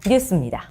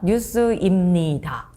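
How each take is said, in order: First: The ending is contracted to 'seumnida'. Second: The ending is said in full as 'seu-imnida'. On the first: The speaker calls it right. "씁니다. 이렇게 합니다" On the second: The speaker calls it wrong. "라고 하지 않아요"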